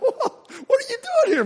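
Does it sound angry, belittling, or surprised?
surprised. It sounds surprised.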